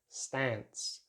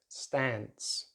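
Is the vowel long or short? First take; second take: short; short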